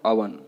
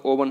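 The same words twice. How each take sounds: First: अवन as "UH-vun"; अवन with no o sound; correct pronunciation. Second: ओवन opening on a full o; ओवन read as spelt; wrong pronunciation. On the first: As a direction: say अवन with a short first vowel. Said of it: "क्या बोलना है?". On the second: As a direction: say ओवन as "O-vun". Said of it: "ओवन नहीं बोलना है". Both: Shown as a demonstration.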